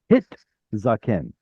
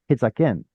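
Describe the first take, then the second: First: It pauses on a clear t before zaken. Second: It is said fast and the t vanishes. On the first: The speaker calls it right. "You have to like stop on that tav, tav in order to make it audible" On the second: The speaker calls it wrong. "If you try to say it fast, hit zaken, gone. It disappears"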